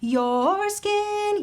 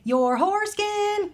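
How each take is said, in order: First: Skin is said cleanly with no added h. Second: An extra breathy h comes before skin. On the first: The speaker calls it right. "If you just say" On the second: The speaker calls it wrong. "you would not say"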